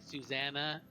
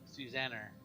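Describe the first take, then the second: First: It ends in a plain vowel, no R. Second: It ends with an added R sound.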